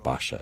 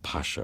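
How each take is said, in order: First: The word begins with a B sound. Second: The word begins with a P sound.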